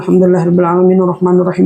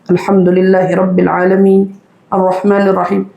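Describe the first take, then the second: First: The verses run together with no pause. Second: There is a pause between the verses. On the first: "tanpa titik, tanpa koma" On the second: "Mari kita ulang"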